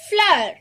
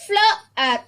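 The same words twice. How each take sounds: First: "floor" joined in one falling syllable; blended. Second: "Floor" split as "flo - ar"; sounded out. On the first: Teacher reads for children to follow, "floor" blended. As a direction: say "floor" whole, high then dropping. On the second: Teacher reads for children to follow, "Floor" sounded out. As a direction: break "Floor" into two separate sounds. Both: Shown as a demonstration. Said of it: "I'll read this".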